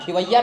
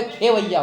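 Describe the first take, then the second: First: खिवैया loud, with short i, "khivaiya"; wrong pronunciation. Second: खेवैया loud, with long e, "khevaiya"; correct pronunciation. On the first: Teacher arguing the answer, खिवैया loudly as "khivaiya". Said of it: "नहीं, खेवैया होता है". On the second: Teacher insisting on the answer, खेवैया loudly as "khevaiya". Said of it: "ख पे ए का मात्रा". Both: Shown as a demonstration.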